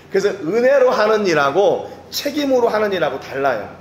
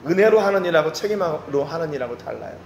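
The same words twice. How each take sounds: First: Louder, higher first statement stressing 은혜로; raised emphatic line. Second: Said in the usual way. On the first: Shown as a demonstration. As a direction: proclaim it, pushing 은혜로. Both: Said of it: "repeated for emphasis".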